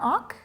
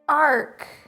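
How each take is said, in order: First: The name is said with a short 'ock' vowel. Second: The name is said with a long 'ar' vowel. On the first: The speaker calls it wrong. "Did I pronounce that wrong?" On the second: The speaker calls it right. "I pronounce it arc"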